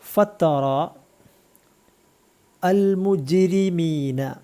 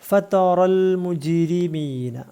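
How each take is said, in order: First: The words are said separately, each on its own. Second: The words are run together into one linked phrase.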